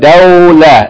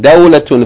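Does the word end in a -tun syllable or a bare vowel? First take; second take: bare vowel; tun syllable. First: The word ends on a bare vowel sound. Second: The word ends with a final -tun syllable. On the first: The reader pauses on this word. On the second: The reading continues past this word.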